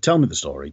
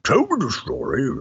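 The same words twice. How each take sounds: First: It is said in the speaker's ordinary voice. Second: It is said in a put-on impersonation voice.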